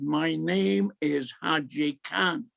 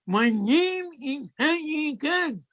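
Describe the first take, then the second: First: Said in the usual way. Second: Slow, much higher, every word of "My name is Haji Khan" pressed out; emphatic insistence. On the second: Retold or imitated. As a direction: lean on it as the secret password.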